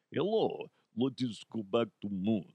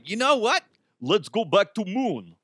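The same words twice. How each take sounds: First: Softer second try at a mock Russian accent. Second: A hint of a Russian accent, barely there; mock Russian voice, higher, played for laughs. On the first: Host retrying Russia's line in Russian accent. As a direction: redo the Russian accent, quieter and lower. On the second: Host voicing Russia, lightly Russian accent. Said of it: "That was supposed to be a Russian accent".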